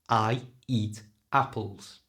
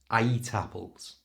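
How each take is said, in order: First: The words are separate, with no linking y sound. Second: A y sound links I to eat. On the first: It sounds robotic. The speaker calls it wrong. "Without putting that link in, it sounds like a robot again" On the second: It sounds natural. The speaker calls it right. "But with it"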